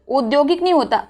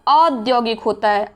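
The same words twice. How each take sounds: First: औद्योगिक said "odyogik"; closed o to start औद्योगिक; wrong O sound. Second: औद्योगिक starting on a wide "au"; correct AU sound. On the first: Teacher quoting the mistake, O at the start. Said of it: "आ में औ की मात्रा". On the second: Teacher correcting it, AU at the start. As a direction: stretch open au in औद्योगिक. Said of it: "आ में औ की मात्रा होती है". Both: Shown as a demonstration.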